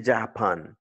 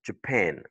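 First: "Japan" as JAH-pahn; full "ah" vowels in both halves of "Japan"; mispronounced Japan. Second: "Japan" as juh-PAN; English "Japan" with a neutral first vowel; correct schwa in Japan. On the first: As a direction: say "Japan" the French way, without schwa. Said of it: "tu peux pas dire". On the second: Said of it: "c'est Je". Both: Shown as a demonstration.

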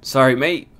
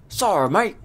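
First: Said in the usual way. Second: High-pitched, hammed-up Australian accent; bad Australian accent. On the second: Player voicing a game character's reply, bad Australian accent. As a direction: put on a loud, bad Aussie twang. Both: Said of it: "That's a bad Australian accent".

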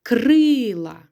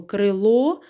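First: Крила with a long, loud КРИ; stress on first syllable. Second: Крило with a long ЛО at the end; stress on final О. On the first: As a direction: stretch the И in крила, drop the ending. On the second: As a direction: lean on the last syllable of крило. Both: Shown as a demonstration. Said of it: "а щоб багато".

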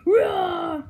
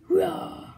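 First: A louder, sharper practice Rah!; Rah! pushed louder the second try; louder jump scare. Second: Weak jump scare. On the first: Plush practicing its jump scare, louder retry. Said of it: "No, I can do it scary". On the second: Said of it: "No, that's not scary". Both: Pretend.

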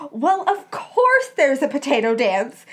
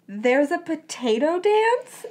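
First: Loud, scandalised insistence; theatrically affronted, punchy reply; shocked cry. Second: Slow, higher questioning rise; puzzled, drawn-out query climbing at the end; incredulous question. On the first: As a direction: exclaim as if it were obvious. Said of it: "sounding shocked". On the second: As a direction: ask it in wondering disbelief. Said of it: "she asked". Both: A narrator's reading.

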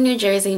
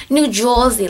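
First: Said in the usual way. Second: Lightly mocked New Jersey accent. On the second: Shown as a demonstration. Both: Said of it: "Not all of us talk like this".

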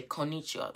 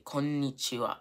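First: "konnichiwa" with a single short n; English speaker's "konnichiwa", n not held; wrong pronunciation. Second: "konnichiwa" with a long n before ni; correct held n. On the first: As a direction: run ko straight into ni in "konnichiwa". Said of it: "You don't say konnichiwa". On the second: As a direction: give the n in "konnichiwa" its own beat. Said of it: "We say konnichiwa". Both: Shown as a demonstration.

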